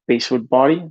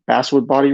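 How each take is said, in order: First: "basswood" said as BASE-wood, with a long A; mispronounced basswood. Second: "basswood" said with a short A, as in "bat"; corrected basswood. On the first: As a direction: say "basswood" with the vowel of "face". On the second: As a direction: say "basswood" as BASS-wood, like the fish. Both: Real, not acted. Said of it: "I screwed up the pronunciation".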